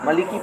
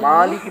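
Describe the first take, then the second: First: The first vowel is short. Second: The first vowel is long. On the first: "बाज़ लोग है नहीं इसे मलिकी पढ़ते" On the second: "मीम खड़ा ज़बर"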